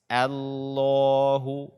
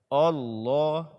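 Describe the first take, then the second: First: The first vowel is light and thin. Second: The first vowel is heavy and dark. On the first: The speaker calls it right. "bacalah A-nya dengan tipis" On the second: The speaker calls it wrong. "membacanya dengan tebal"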